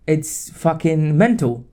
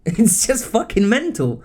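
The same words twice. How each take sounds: First: Said in the usual way. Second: Real laugh of exasperation; laughing disbelief. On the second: Real, not acted. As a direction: laugh it out, incredulous. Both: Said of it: "I just don't know what to say".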